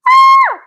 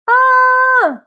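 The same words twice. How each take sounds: First: It is a loud, full scream. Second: It is a soft, weak sound.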